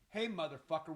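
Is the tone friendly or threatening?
threatening. The tone is hostile and menacing. It is a threat. "one is a threat"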